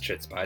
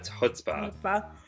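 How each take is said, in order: First: The word starts with a ch sound. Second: The word starts without a ch sound. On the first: The speaker calls it wrong. "it's not pronounced" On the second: The speaker calls it right.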